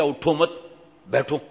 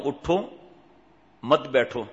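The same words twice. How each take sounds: First: اٹھو مت run together, pause, then بیٹھو; pause after مت. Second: اٹھو alone, pause, then مت بیٹھو run together; pause after اٹھو. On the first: Retold or imitated. Man misreporting the order to the engineer, pause after مت. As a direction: break after مت, leaving بیٹھو on its own. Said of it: "میں نے تو ایسے لہجہ کہا ہی نہیں". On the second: Shown as a demonstration. Preacher showing what he told the engineer, pause after اٹھو. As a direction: break after اٹھو, keeping مت joined to بیٹھو. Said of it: "پھر یہ لہجہ تھا".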